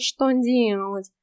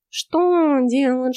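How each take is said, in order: First: Slower, dismissive echo; snooty bored cat. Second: Snorting. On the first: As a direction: snort it back, unimpressed. (кот лениво фыркает) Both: Acted. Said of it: "фыркнул кот".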